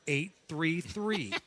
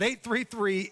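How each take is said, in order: First: It is read very slowly. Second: It is read at a quicker pace.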